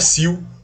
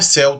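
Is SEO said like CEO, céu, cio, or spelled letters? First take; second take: cio; céu. First: It is said as the single word cio. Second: It is said as the single word céu. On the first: "Não é cio" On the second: "Não é céu também"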